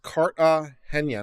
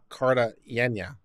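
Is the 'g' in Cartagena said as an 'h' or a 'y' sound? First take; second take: h sound; y sound. First: The 'g' is said like an English 'h'. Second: The 'g' is said like an English 'y'. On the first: The speaker calls it right. "It's pronounced Cartagena ... Henya" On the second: The speaker calls it wrong. "not Cartagena ... not Yenya"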